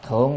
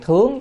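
First: The word has a low, heavy tone. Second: The word has a high rising tone. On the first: The word marks a position, not an action. The speaker calls it wrong. "chứ không phải đọc thượng được" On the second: The word is a verb meaning to offer up. The speaker calls it right. "cho nên đọc chữ thướng"

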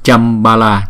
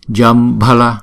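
First: The first consonant is a voiceless c sound. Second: The first consonant is a voiced j sound. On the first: The speaker calls it wrong. "Jambala là thành chữ C rồi, Jambala là không đúng" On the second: The speaker calls it right. "Chữ J này chúng ta đọc là J"

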